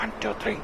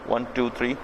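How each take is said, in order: First: The words are spoken very softly. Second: The words are spoken a bit louder. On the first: "बड़ा slowly बोलना है" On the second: "थोड़ा तेज बोलना है"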